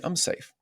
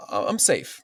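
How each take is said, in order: First: Whispered self-reassurance. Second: Said in the usual way. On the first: Shown as a demonstration. To his own body, a soft whispered reassurance. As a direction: breathe it out in a whisper, higher. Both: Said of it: "Tell my body".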